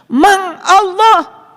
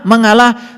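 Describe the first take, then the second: First: The word is said slowly, syllable by syllable. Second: The word is said at normal speed.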